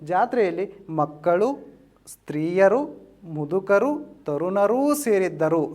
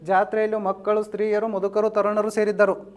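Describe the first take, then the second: First: There is a short pause after each list item. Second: The list items run together without pauses. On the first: The speaker calls it right. "ಈ ವಾಕ್ಯಕ್ಕೆ ಒಂದು ವಿಶಿಷ್ಟವಾದ ಲಕ್ಷಣ ಬರುತ್ತೆ" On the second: The speaker calls it wrong. "ಅಲ್ಪ ವಿರಾಮ ಇಲ್ಲ ಅಂತ ತಿಳ್ಕೊಡ್ರಿ"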